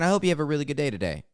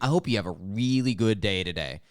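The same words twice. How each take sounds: First: It is said in a warm, sincere tone. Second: It is said in a mocking, sarcastic tone. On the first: The speaker truly wishes the listener well. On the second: The speaker does not mean the kind wish.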